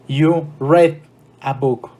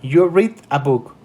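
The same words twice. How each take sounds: First: The word read rhymes with red. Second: The word read rhymes with reed. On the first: The reading happened in the past. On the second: The reading happens now.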